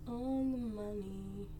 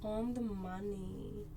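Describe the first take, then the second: No difference in how they are said.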